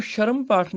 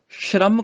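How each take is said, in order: First: ਸ਼ਰਮ as sha-ram, vowel before r; wrong syllable split. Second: ਸ਼ਰਮ as shramm; joined consonants. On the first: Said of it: "ਸ਼ਰਮ ਪਾਠ ਨਹੀਂ ਕਰਨਾ". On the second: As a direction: run sh straight into r in ਸ਼ਰਮ. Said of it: "ਸ਼ਰਮ ਕਰਨਾ ਹੈ". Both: Shown as a demonstration.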